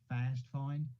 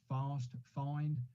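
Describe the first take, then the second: First: It is said in an American accent. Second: It is said in a non-American accent. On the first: "as you Americans would say" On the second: "I would pronounce it"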